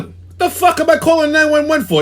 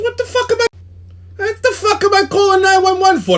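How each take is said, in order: First: Higher, heated disbelief; can't believe what he's hearing; first take, angry but held back; incredulous outburst. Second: Losing it completely on the phone; second take, full-blown shouting; furious yell. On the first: Retold fight with phone rep. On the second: Retold fight, escalating. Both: Retold or imitated.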